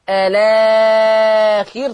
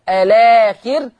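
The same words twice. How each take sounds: First: The long vowel is held for four counts. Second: The long vowel is held for two counts. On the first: "توسط" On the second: "الاخر بالقصر"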